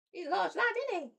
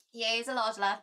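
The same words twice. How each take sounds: First: Much higher sing-song pet voice. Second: Said in the usual way. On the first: Real, not acted. Owner coos to her cat in pet talk, high and sing-song.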